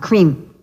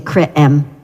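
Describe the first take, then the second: First: The two vowels merge into one new sound. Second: The two vowels are said as separate sounds. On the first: The speaker calls it right. "We put them together and say a new sound" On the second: The speaker calls it wrong. "you don't say cre-em"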